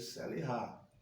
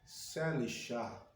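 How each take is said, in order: First: The consonant before the last vowel is throaty. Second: The consonant before the last vowel sounds like sh. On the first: The speaker calls it right. "C H que tem som de R, nunca de chá" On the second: The speaker calls it wrong. "eu não vou ler Selishá"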